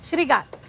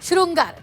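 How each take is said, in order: First: It begins with a plain 'shri' sound. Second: It begins with a nasal 'shrin' sound. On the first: The speaker calls it wrong. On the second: The speaker calls it right.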